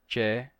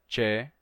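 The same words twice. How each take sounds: The two takes are said the same way.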